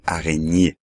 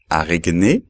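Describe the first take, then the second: First: Araignée with gn as ñ, aʁeɲe; right way, araignée; correct French. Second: Araignée with a hard g, arègne; the mistake, g and n apart in araignée; wrong pronunciation. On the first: Teacher showing students the right araignée. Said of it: "sino araignée". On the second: Teacher showing students the wrong araignée. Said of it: "no hay que decir araignée". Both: Shown as a demonstration.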